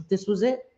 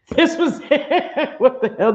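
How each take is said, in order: First: Said in the usual way. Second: Mock grand letdown. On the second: Mocking the anticlimactic pedestal visit.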